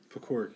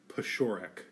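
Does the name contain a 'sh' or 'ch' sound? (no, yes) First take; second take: no; yes. First: The name is said without a 'sh' sound. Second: The name is said with a 'sh' sound. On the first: This is how the family says the name. "That's how I pronounce it. That's how my family pronounces it" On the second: This is the original Polish way to say the name. "it's actually pronounced Pashorek. ... it's a CH sound"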